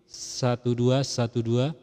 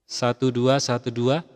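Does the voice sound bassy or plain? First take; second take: bassy; plain. First: The voice sounds fuller, with added bass. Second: The voice sounds plain, with no added bass. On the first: "ini aktif" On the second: "ini nonaktif"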